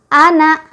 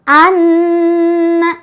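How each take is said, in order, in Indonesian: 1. N-nya tunggal, tanpa tahanan sengau. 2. Bunyi n sengau yang dobel ditahan lama. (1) "tasydidnya tidak ada, otomatis tidak ada dengung sama sekali" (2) "Itu bacaan yang betul"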